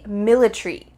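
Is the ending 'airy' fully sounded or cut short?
cut short. The A is dropped, British style.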